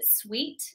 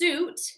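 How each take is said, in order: First: It has a w sound, like sweet. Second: It has no w sound, like soot. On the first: The speaker calls it wrong. "a common mistake for this is people pronounce it sweet" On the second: The speaker calls it right. "it's actually pronounced suit"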